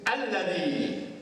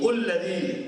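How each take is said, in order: First: The word begins with an a vowel. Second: The word begins with a u vowel. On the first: The speaker calls it right. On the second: The speaker calls it wrong.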